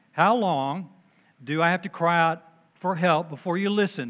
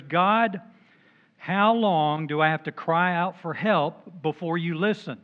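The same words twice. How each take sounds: First: Whining plea. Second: Whining to God. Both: Acted. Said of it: "This is why I call him a whiner".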